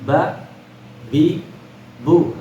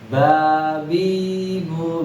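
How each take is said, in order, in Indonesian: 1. Setiap vokal pendek, satu ketukan masing-masing. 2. Vokalnya dipanjangkan dan diperpanjang. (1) "Maka ba bi bu ketukannya ya. Tidak boleh tamtiq" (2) "tidak dibaca babi bu gitu ya"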